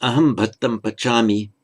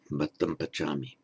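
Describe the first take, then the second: First: "Aham" said firmly and louder; pronoun stressed. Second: "Bhattam pachami" said lower and softer; softer short form. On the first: Teacher reading the full form with pronoun, louder. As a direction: lean on "Aham". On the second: Teacher giving the short form, quieter. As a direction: let it fall away quietly. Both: Shown as a demonstration.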